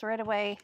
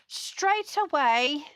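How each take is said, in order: First: Said in the usual way. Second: Slow, hammed-up British accent; bad British accent. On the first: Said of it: "my very bad British accent". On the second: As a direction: put on a badly faked British voice, drawn out and higher. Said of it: "That's my very bad British accent".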